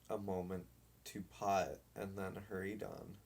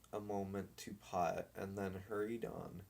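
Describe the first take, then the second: No difference in how they are said.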